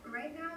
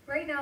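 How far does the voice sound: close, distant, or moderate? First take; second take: Distant; Close. First: The voice sounds far away and very roomy. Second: The voice sounds close and separated from room noise. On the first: The speaker calls it wrong. "back before when she was further away" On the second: The speaker calls it right. "here I'm using a microphone that is built into my earbud"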